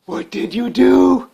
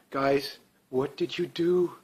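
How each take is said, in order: First: Higher, louder, slow exasperated repeat; exasperated outcry. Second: Slow, softer, dismayed question; disappointed scolding. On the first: Repeating the question to Alberta voters, in an exasperated outcry. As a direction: cry it out in disbelief. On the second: Asking Alberta voters what they did, slowly and dismayed. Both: Pretend.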